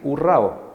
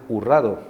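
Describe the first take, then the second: First: The word ends in two vowels with no consonant. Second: A d sound is added before the final vowel. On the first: "qué pena decir hurrao" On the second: "le asignan a las palabras sonidos que no necesita"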